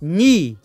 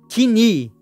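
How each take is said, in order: First: The word starts directly with an n sound. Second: The word starts with an audible k sound. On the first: The speaker calls it right. "e sim ni" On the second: The speaker calls it wrong. "não é kni"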